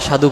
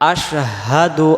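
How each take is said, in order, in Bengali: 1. শব্দটি সাধারণ 's' ধ্বনি দিয়ে শুরু। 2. শব্দটি 'sh' দিয়ে শুরু, তারপর 'h'।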